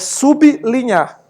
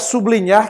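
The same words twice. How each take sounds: First: The b is kept apart from the l. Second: The b is joined to the following l. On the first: The speaker calls it right. "se escreve junto, mas se pronuncia separado" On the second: The speaker calls it wrong. "Não diga sublinhar que é feio"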